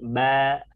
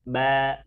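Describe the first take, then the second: Both takes have the same delivery.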